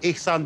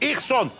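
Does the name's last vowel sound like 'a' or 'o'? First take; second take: a; o. First: The last vowel of the name sounds like 'a'. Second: The last vowel of the name sounds like 'o'. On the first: This is the ordinary form of the name. The speaker calls it wrong. "senin adın İhsan değil" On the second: This form sounds more Nordic. The speaker calls it right. "İhson kulağa daha bir Norse geliyor"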